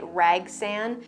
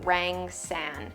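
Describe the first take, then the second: First: The first syllable has no 'ng' sound. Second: The first syllable ends with an 'ng' sound. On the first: The speaker calls it wrong. "I always say it wrong. I say it Ragsan" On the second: The speaker calls it right. "But this is a Hoya Rang San"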